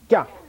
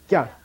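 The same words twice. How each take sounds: First: The syllable is said with a high, hard pitch. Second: The syllable is said with a high, hard pitch.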